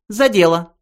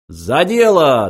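First: High, businesslike call to work; lightly voiced mouse getting down to business; brisk mouse voice. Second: Slow, loud hearty toast; cheerful toast. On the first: Benji calling everyone to business. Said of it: "произнёс Бенджи". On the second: Ford and Zaphod cheerfully toasting together. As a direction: raise the glass and call it out. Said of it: "дружно воскликнули они". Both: A narrator's reading.

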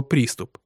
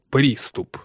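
First: Said in the usual way. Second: "приступ" slow and set apart, sceptically; drawn-out, doubting stress on "приступ"; audible quote marks. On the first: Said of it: "с какой было произнесено слово". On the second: A narrator's reading. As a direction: put "приступ" in spoken quotation marks. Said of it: "интонация ... не оставляла никаких сомнений".

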